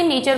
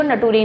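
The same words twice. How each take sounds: First: Said in the usual way. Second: नटूरे, sounded out as "na-too-ray"; wrongly phonetic नटूरे, with a hard t; spelling pronunciation. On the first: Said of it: "नेचर को नटूरे नहीं कह सकते". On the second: Shown as a demonstration. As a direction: read nature just as it is spelt, नटूरे. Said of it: "पर अंग्रेजी में ऐसा नहीं होता".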